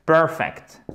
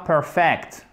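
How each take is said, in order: First: Perfect stressed on PER, falling; correct first-syllable stress. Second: Perfect wrongly stressed on second syllable FECT. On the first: Teacher corrects the mistake, PER-fect stressed first. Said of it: "accent tonique ici". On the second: Teacher warns viewers off it, per-FECT wrongly stressed. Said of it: "Ne me dites pas perfect". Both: Shown as a demonstration.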